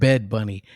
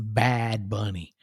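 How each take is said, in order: First: The name is said with a Spanish accent. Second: The name is said with an English accent. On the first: The speaker calls it wrong. "You keep saying bed bunny" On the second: The speaker calls it right. "It's bad bunny"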